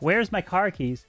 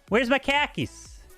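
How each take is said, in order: First: It is said in a plain, neutral accent. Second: It is said in a New Jersey accent. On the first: "But instead of saying that" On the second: "say the word khaki, and then you got yourself an accent"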